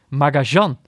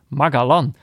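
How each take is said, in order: First: The name has an sh-like middle sound. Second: The name has a hard g and a plain l. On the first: "mensen die het specifiek op zijn Argentijns uitspreken" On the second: "op zijn Hollands uit. Met een Engelse G"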